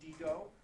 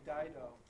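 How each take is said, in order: First: The name is said with a Latin pronunciation. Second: The name is said with an English pronunciation. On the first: "Latin pronunciation" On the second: "the English pronunciation"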